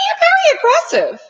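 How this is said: It is said in a put-on, imitated voice.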